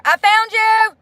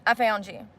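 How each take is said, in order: First: High, loud cry of relief; excited relief. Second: Lower, soft repeat to herself; quiet relieved echo under the breath; relieved murmur. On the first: Streamer finally finds the viewer she blocked, excited high cry. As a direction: shout it like finding a lost friend. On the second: Streamer repeating softly to herself after finding the viewer, relieved murmur. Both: Real, not acted.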